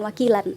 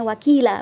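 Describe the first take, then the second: First: The word ends with an n sound. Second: The word ends on an open vowel. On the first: The speaker calls it wrong. "bukan wakilan ya" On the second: The speaker calls it right. "Jadi dibacanya wakila"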